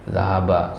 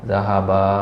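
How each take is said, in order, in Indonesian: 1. Vokal akhir diucapkan pendek. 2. Vokal akhir diucapkan panjang. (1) "satu orang" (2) "dua orang"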